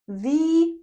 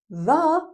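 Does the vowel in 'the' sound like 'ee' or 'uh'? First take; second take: ee; uh. First: It is said with a long 'ee' vowel. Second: It is said with a short 'uh' vowel. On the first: It comes before a vowel sound. "the plus vowel sound" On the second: It comes before a consonant sound. "the plus consonant sound"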